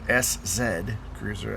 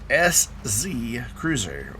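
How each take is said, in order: First: The letter Z is said as zed. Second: The letter Z is said as zee.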